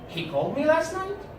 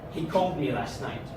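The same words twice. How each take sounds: First: It sounds like a question being asked. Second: It sounds extremely annoyed. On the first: The speaker is asking whether it happened. "I can say it as a question" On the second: The speaker is irritated by the news. "like I'm extremely annoyed with this information"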